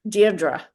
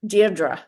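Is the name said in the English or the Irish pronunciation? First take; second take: Irish; Irish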